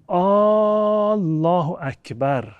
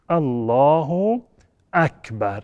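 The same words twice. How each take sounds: First: The first vowel of Allah is drawn out long. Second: Neither first vowel is drawn out long. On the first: It becomes a question expressing doubt. The speaker calls it wrong. "با مد الف الله" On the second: It states that God is the greatest. The speaker calls it right. "این تلفظ صحیح است"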